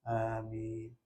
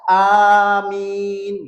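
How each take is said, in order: First: It is said softly and half-heartedly. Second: It is said loudly and firmly.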